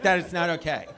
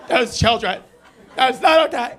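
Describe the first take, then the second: First: Lightly voiced stern teacher, "That is not okay" said evenly; a hint of a disapproving teacher. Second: Higher, louder scolding teacher, "not" hit hard in "That is not okay"; mock teacher getting more outraged; stern teacher, rising. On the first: Comic mimics a teacher scolding the audience, lightly. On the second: Comic mimics a frowning teacher scolding louder. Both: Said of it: "looking at me like a teacher".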